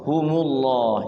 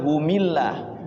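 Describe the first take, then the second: First: The linking vowel after hum is u. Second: The linking vowel after hum is i. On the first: The speaker calls it right. "tapi humu" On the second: The speaker calls it wrong. "jangan humillah"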